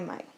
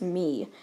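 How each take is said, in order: First: The vowel is an 'ay' diphthong. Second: The vowel is a long 'ee' sound. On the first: The speaker calls it right. "in this case it is Mai" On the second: The speaker calls it wrong. "you'd first think it was me, but and then but it's not me"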